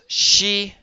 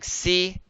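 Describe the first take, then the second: First: The syllable begins with an sh sound. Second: The syllable begins with a plain s sound. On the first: "it becomes she" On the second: "Instead of saying si"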